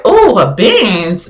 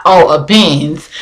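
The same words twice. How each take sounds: First: Drawn-out admiring reaction, pitch swooping; mildly impressed. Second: Low, slow, understated notice; note it coolly, pitched down and unhurried; not groupie-like. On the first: Woman spotting a Benz at the light, openly impressed. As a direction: slowly admire the car, lilting up and down. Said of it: "groupie Benz". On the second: Woman turning to glance at a Benz, playing it cool. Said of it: "But I wasn't, like, groupie Benz". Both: Retold or imitated.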